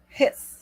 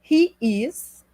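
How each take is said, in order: First: The words merge into one short syllable. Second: Both words are said separately in full.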